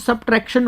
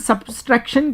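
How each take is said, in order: First: No extra s sound comes before the t. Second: An extra s sound comes before the t. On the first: The speaker calls it right. "लेकिन वो सबट्रैक्शन होता है" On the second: The speaker calls it wrong. "कई बार हम सब्सट्रैक्शन कहते हैं"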